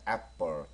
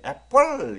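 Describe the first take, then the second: First: 애플 at normal volume, 플 short and swallowed; restrained 애플 with a tucked-in final l; slightly swallowed. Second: 애플 with a loud, drawn-out rolling 플; loud mock-wrong 애플, ending stretched out; exaggerated wrong take. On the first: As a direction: swallow the end of 애플 lightly. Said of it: "약간 먹어줘야 됩니다". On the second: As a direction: overdo the final l of 애플. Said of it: "먹어서 발음을 해야지 애플 이러면 좀 이상하잖아요". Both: Shown as a demonstration.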